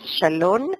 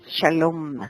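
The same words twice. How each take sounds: First: The word ends with an N sound. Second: The word ends with an M sound. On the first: The speaker calls it wrong. "No es Shalom" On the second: The speaker calls it right. "es Shalom"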